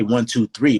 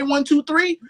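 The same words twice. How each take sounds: First: Said in the usual way. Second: Much higher, sung-out laid-back count. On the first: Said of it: "or you could say". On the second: Retold or imitated. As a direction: drawl the count with high swinging cool. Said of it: "When [name] say".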